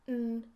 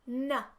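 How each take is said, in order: First: The consonant sound is held with no vowel. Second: A short vowel follows the consonant sound. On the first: The speaker calls it right. "which should be" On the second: The speaker calls it wrong. "A schwa is when you use a at the end of a sound that doesn't require it"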